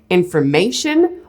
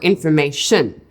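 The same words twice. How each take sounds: First: The stress is on the third syllable. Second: The stress is on the fourth syllable.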